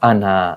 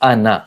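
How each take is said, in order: First: The final vowel is drawn out long. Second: The final vowel is kept short. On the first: The speaker calls it wrong. "not ana. This alif will be cancelled" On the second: The speaker calls it right. "So it is ana"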